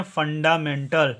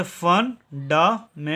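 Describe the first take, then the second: First: "फंडामेंटल" run together as a whole word; joined pronunciation. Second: "फंडामेंटल" slowly in four parts, fun-da-men-tal; syllable by syllable. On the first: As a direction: say "फंडामेंटल" connected, no gaps between parts. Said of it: "इसका उच्चारण करेंगे". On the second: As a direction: separate each chunk of "फंडामेंटल" with a gap. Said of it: "अब इसको पढ़िए". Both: Shown as a demonstration.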